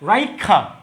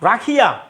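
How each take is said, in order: First: An i is heard before the middle consonant. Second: The i is heard only after the consonant. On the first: "রাখিয়াকে যদি বলে রাইখা" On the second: "যদি বলে রাখিয়া"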